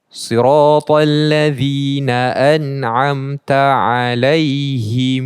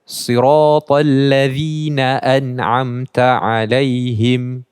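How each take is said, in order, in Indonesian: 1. Kata ini berakhir dengan -himu, vokal u dipanjangkan. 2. Kata ini berakhir dengan -him, m tertutup. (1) "dia tak baca alaihim tapi baca alaihimu" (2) "baca kasrah dan mimnya dibacakan dengan sukun"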